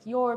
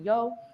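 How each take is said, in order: First: The final R sound is pronounced. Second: The final R sound is dropped.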